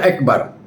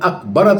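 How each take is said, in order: First: The first vowel is an 'e' sound. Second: The first vowel is an open 'a' sound. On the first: The speaker calls it wrong. "Jangan bunyi ek" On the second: The speaker calls it right. "Kan alif tu"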